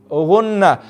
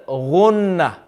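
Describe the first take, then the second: No difference in how they are said.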